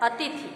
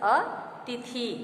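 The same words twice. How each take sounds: First: The vowel after 'th' is a short i. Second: The vowel after 'th' is a long ee. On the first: The speaker calls it right. "शुद्ध शब्द हमारा है" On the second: The speaker calls it wrong. "अशुद्ध है"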